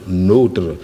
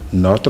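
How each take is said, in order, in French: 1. La voyelle o est fermée. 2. La voyelle o est ouverte. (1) "ce qu'on appelle le O fermé" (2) "le O est ouvert"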